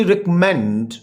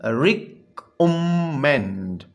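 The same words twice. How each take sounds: First: Said in the usual way. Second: रिकमेंड slowly split in three, rec-om-mend; syllable by syllable. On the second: Shown as a demonstration. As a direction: hold each syllable of रिकमेंड apart. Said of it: "ये three syllable word है". (رکمنڈ کو تین ٹکڑوں میں ٹھہر کر بولیں)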